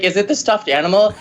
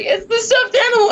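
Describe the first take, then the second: First: Lightly voiced asking mom; mom's question. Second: Very high, squeaky crying voice; mock tearful wail. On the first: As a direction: ask a little higher, rising at the end. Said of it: "she's like". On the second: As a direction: imitate yourself blubbering the answer. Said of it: "I'm, like, covered in tears".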